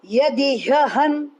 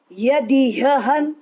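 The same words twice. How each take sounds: The two takes are said the same way.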